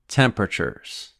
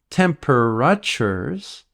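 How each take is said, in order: First: The middle vowel sound is dropped entirely. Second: The middle vowel sound is fully pronounced. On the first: The speaker calls it right. "We don't pronounce the A sound in the middle of the word" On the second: The speaker calls it wrong. "It's not temperatures"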